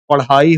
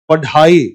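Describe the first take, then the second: First: The middle consonant is a quick retroflex flap. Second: The middle consonant is a hard retroflex stop. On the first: The speaker calls it right. "क्या होता है? पढ़ाई होता है" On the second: The speaker calls it wrong. "अगर इसमें बिंदी हम ना लगाएं तो इसको क्या उच्चारण होगा?"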